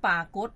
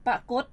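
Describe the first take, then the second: First: ปากฏ opening on a long "aa"; long first vowel. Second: ปรากฏ opening on a short "a"; short first vowel. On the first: Host names the word pair to the teacher, long vowel in ปากฏ. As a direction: say ปากฏ with a drawn-out "paa" at the start. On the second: Host names the word pair to the teacher, short vowel in ปรากฏ. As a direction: say ปรากฏ with a short, quick "pa" at the start. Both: Shown as a demonstration. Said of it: "อีกคู่คำหนึ่งก็ลักษณะเดียวกัน".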